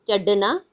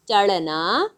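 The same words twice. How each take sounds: First: "चढ़ना" with a stopped ढ, straight into ना; hard ढ. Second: "चढ़ना" with l-like flap and slight schwa; flapped ढ़. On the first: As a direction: stop the tongue firmly in "चढ़ना", no flap. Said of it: "ढ ढक्कन की तरह उच्चारण करेंगे". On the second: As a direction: flick the tongue before "ना" in "चढ़ना". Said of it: "इसमें अंतर क्या है". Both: Shown as a demonstration.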